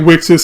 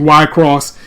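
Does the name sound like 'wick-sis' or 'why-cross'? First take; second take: wick-sis; why-cross. First: The name sounds like 'wick-sis'. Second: The name sounds like 'why-cross'. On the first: The speaker calls it wrong. "Some say" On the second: The speaker calls it right. "Y-Cross is actually the correct pronunciation"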